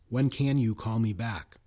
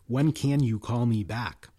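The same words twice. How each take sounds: First: Can and you are pronounced in full. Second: The same.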